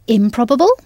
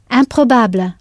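First: Said in the usual way. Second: Improbable said the French way, nasal in and stress on the end; French pronunciation. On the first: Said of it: "the stress on the last part of the word". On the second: Shown as a demonstration. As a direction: stress the last syllable of improbable. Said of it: "I M is sounded in".

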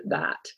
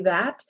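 First: "that" as "thaht", tongue low and back; lowered back vowel. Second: Said in the usual way. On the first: Shown as a demonstration. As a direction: open "that" to an AH vowel. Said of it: "lower and back in the mouth". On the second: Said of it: "when I say that".

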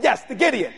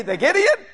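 First: "Gideon" stated with a falling tune; "Gideon" as a settled statement; plain confirmation. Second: "Gideon" lifted high in a question; puzzled question. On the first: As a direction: answer firmly, letting "Gideon" drop. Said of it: "I said". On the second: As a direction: echo "The Gideon" as a question, pitch rising at the end. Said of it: "And they say". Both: Retold or imitated.

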